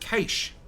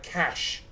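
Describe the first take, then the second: First: The word does not sound like 'cash'. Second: The word sounds exactly like 'cash'. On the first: This is how it is said in Australia. "we pronounce it cache" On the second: This is how it is said outside Australia. "you guys pronounce it like cash"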